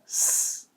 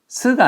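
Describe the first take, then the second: First: It is a bare hiss of escaping air. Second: It is a full syllable with a vowel. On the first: The speaker calls it right. "바람 새는 소리" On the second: The speaker calls it wrong. "스가 아니라"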